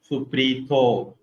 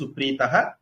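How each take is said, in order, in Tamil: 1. இந்தச் சொல் 'o' ஒலியில் முடிகிறது. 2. இந்தச் சொல் மூச்சு கலந்த 'ah' ஒலியில் முடிகிறது. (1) "If we are not taking, ... supritaha will become suprito" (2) "If we take breath, then it is supritaha"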